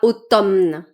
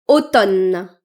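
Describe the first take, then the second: First: The M sound is pronounced. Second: The M sound is not pronounced. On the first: The speaker calls it wrong. "et pas" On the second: The speaker calls it right. "Le M est silencieux"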